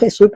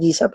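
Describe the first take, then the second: First: The name is pronounced with Spanish sounds. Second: The name is pronounced with English sounds. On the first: Spanish speakers say it this way. "porque hablamos en español" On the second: English speakers say it this way. "En inglés dicen"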